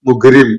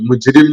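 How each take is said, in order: First: The middle consonant is a hard g sound. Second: The middle consonant is a j sound.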